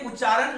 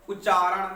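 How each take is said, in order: First: उच्चारण run together with a plain n ending; everyday उच्चारण, final ण flattened to न; casual mispronunciation. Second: उच्चारण spoken out fully with retroflex ण; careful उच्चारण, tongue curled back for the final ण; careful correct pronunciation. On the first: Teacher quoting people's faulty speech, casual mispronunciation of उच्चारण. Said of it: "जो बोलते हैं वो गलत बोलते हैं". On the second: Teacher showing the proper word, careful correct pronunciation of उच्चारण. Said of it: "उच्चारण जब बहुत अच्छे तरीके से करके बोलते हैं". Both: Shown as a demonstration.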